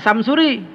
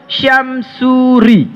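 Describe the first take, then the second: First: The name begins with a plain s sound. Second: The name begins with an sh sound. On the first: The speaker calls it wrong. "Jangan Samsuri" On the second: The speaker calls it right. "S pertamanya pakai Y"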